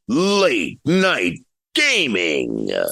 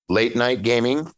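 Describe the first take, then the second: First: It is said in a deep Halo announcer voice. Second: It is said in a normal, questioning voice.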